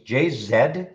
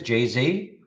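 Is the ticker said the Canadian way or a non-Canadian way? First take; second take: Canadian; non-Canadian. First: The letters are said in a Canadian way. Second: The letters are said in a non-Canadian way. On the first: "I'll say it the Canadian ways" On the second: "Seems crazy to say it like that"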